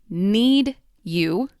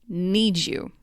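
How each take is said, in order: First: The D and Y sounds are kept separate. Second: The D and Y blend into a J sound.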